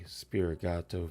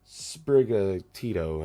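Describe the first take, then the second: First: The name is said with three syllables. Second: The name is said with four syllables. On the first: The speaker calls it wrong. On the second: The speaker calls it right.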